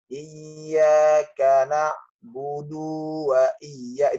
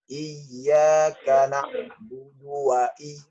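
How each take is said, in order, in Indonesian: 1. Vokal terakhir na'budu dibaca panjang. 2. Vokal terakhir na'budu dibaca pendek. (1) "Jangan membacanya ... itu salah" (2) "Yang benar adalah ... langsung gitu"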